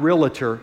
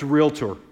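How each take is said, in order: First: An extra vowel is inserted between L and T. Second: No vowel is inserted between L and T. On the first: The speaker calls it wrong. "not realtor" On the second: The speaker calls it right. "There's no A between the L and the T. It's Realtor"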